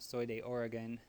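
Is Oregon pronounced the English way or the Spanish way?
English. Oregon is pronounced the English way. "you can say"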